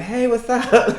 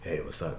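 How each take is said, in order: First: It is said in a natural, unforced voice. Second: It is said in a put-on deep, masculine voice. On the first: The speaker sounds like their real self. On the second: The speaker is trying to sound masculine.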